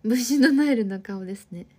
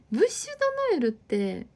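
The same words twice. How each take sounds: First: Said in the usual way. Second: Laughing as she repeats ブッシュドノエル, higher. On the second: Real, not acted. Reading a viewer's comment back, laughing. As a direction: giggles out ブッシュドノエル in disbelief.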